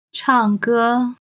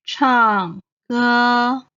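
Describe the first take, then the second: First: Said in the usual way. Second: Stretched teaching 唱歌, falling 唱, level 歌; fourth, first tone. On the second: Shown as a demonstration. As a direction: say 唱歌 syllable by syllable, falling then level. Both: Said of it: "唱 is the fourth tone".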